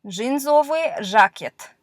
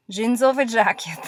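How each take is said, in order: First: Jeansowy jacket read out slowly, syllable by syllable; slow careful reading. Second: Said in the usual way. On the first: Shown as a demonstration. Teacher reading cognate words slowly to learners. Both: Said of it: "This is some cognate words".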